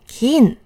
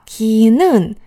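First: It is contracted into a single syllable. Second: It is said as two separate syllables. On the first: "你可以把它缩成一个字" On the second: "把ki 는变成kin"

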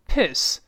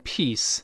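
First: The vowel is a short i sound. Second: The vowel is a long ee sound. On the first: The speaker calls it right. "请注意这里读成piss" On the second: The speaker calls it wrong. "不要读成peace"

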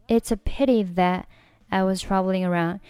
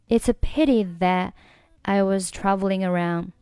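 First: The t of 'that' is dropped, then a pause. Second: The t of 'that' is dropped, then a pause.

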